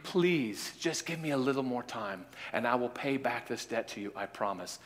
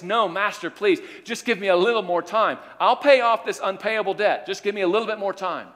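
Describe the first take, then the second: First: Quiet, fading plea for more time; poor debtor pleading quietly with the freed man; soft pleading. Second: High, louder desperate pleading; begging servant. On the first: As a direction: beg softly, voice dropping away. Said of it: "the guy says, "Please". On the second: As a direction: beg the master for more time, pitched up. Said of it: "he begs and says". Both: Acted.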